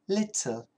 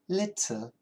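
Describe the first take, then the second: First: The middle T is a clear T sound. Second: The middle T is a clear T sound.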